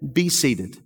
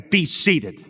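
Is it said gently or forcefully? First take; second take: gently; forcefully. First: It is said in a mild, gentle tone. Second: It is said in a forceful, commanding tone.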